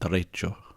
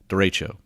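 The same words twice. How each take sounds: First: It is said with a Spanish accent. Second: It is said with an English accent.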